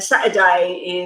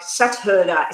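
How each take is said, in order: First: The word is said with a British accent. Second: The word is said with an Australian accent. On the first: The speaker calls it wrong. "is how um, British people say it" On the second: The speaker calls it right. "I should be saying it like"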